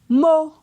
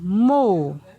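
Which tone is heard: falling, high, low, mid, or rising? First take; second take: high; falling. First: It is said on a high tone. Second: It is said on a falling tone. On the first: "Ton haut" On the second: "Ton descendant"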